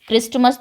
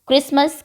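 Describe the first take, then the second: First: The middle t sound is pronounced. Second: The middle t sound is silent. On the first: The speaker calls it wrong. "क्रिस्टमस तो बोला ही नहीं" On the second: The speaker calls it right. "क्रिसमस में टी silent है"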